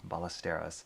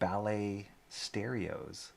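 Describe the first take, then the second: First: The name is said as one smooth word. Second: The name sounds like two words, ballet and stereos. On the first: The speaker calls it right. "my last name is Ballesteros" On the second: The speaker calls it wrong. "somebody pronounced it ballet stereos, like ballet, the dance, and stereos"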